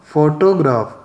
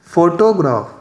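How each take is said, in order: No difference in how they are said.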